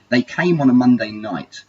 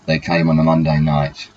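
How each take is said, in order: First: It is read with lively expression. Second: It is read flatly, without expression.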